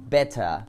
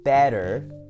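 First: It has a posh British clear T. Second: It has an American flapped T.

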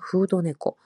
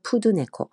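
First: The first word is said like Japanese 'fudo'. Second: The first word is said like Korean 'pudeu'.

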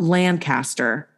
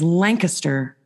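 First: Lancaster is said the way outsiders say it. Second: Lancaster is said the way locals say it. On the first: The speaker is not from the area. The speaker calls it wrong. "We know you're an outsider when you say Lancaster" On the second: The speaker is from the area. The speaker calls it right. "it is Lancaster"

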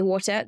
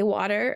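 First: The word is said with a non-American pronunciation. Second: The word is said with an American pronunciation. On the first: This is the speaker's own way of saying it. The speaker calls it right. "I'll say water" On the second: This is how people here say it. The speaker calls it wrong. "I will never say water"

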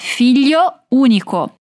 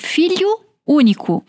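First: The final vowels are pronounced like O. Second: The final vowels are pronounced like U. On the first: The speaker calls it right. "não trocamos o O pelo U" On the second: The speaker calls it wrong. "Cuidado para não dizer filho único"

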